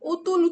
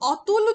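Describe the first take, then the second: First: The first vowel is changed to a closer 'o'. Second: The first vowel is the unchanged open 'aw' sound. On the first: "মনের ভুলে অতুল উচ্চারণ করবে" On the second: "অতুল উচ্চারণ করতে গিয়ে"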